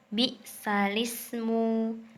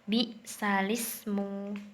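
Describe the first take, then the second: First: The l runs straight into ismu. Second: The l runs straight into ismu.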